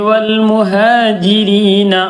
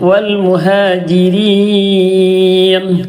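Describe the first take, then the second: First: The word ends with an added final vowel. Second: The word ends on the bare consonant. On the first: The speaker calls it wrong. "എന്ന് പറയരുത്" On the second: The speaker calls it right. "അവസാനത്തെ അക്ഷരത്തിന് സുക്കൂൻ കൊടുക്കണം"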